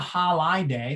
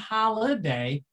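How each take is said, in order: First: The second vowel is a long I sound. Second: The second vowel is a short I sound. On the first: "It's not a holiday, the long I" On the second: "it's not even holiday, the short I"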